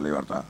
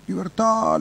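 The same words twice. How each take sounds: First: Fading parrot cry. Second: Parrot squawk. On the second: Parrot shouting from cage. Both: Retold or imitated.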